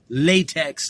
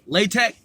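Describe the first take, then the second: First: It sounds like the rubber material. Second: It does not sound like the rubber material. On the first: "latex, like a prophylactic rubber" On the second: "Some will say LaTeX"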